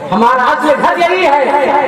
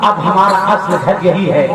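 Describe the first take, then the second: First: हमारा असल घर यही है said slower and higher, stressing यही; slowed repeat that lands on यही; slow emphatic repeat. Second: Said in the usual way. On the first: Shown as a demonstration. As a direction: drive the point home slowly on यही.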